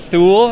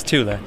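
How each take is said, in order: First: "Thule" said as the mistaken name, with emphasis; wrong brand pronunciation. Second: "Tula" said clearly as TOO-la; correct brand pronunciation. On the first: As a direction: stress "Thule" as the name to reject. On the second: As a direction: model "Tula" with stress on the first syllable. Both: Shown as a demonstration. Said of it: "Is that the correct pronunciation?".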